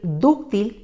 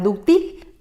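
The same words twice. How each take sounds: First: The stress is on the first syllable. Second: The stress is on the last syllable. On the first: The speaker calls it right. "lo correcto es decir y escribir" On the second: The speaker calls it wrong. "de ninguna manera"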